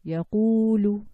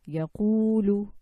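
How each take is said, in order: First: "yaqulu" slow and much louder, the u held long; louder long u demo. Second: "yaqulu" slow and loud, the u held long; "yaqulu" with a long rounded u; long u demo. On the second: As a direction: draw out the u in "yaqulu". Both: Shown as a demonstration. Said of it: "This is the u sound".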